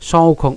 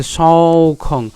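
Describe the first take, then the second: First: "সৌখং" isolated and careful; syllable demo. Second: Slow "সৌখং" ending in a nasal hum; correct final nasal. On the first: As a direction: say "সৌখং" on its own. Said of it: "একই রকম". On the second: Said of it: "not উমো". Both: Shown as a demonstration.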